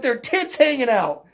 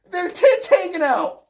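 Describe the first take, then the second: First: Said in the usual way. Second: Higher, half-shouted disbelief; crying out in disbelief; incredulous repeat. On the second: Real, not acted. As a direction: repeat it in amused outrage, voice jumping up. Incredulous repeat while breaking into laughter.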